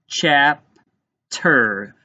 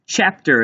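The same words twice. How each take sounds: First: "Chapter" slowly as chap, pause, ter; split into syllables. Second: Said in the usual way. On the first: Shown as a demonstration. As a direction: break "Chapter" into two separate syllables. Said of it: "tap out the first syllable". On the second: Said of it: "Let's tap out the first syllable in chapter".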